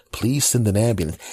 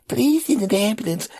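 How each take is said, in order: First: Said in the usual way. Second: Put-on very high child's echo; little kid voice. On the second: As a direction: parrot it like a small boy. Nephew repeating.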